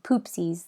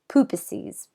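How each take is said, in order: First: The word is said with two syllables. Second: The word is said with three syllables. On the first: The speaker calls it wrong. "I said poopsies the whole time" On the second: The speaker calls it right. "it was supposed to be poopuses"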